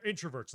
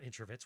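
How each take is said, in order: First: Said in the usual way. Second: "introverts" slurred into "intra-vits"; mispronounced word. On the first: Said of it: "not introverts". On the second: Real, not acted. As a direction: fumble "introverts", last syllable becoming "vits". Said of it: "What the fuck was that word?".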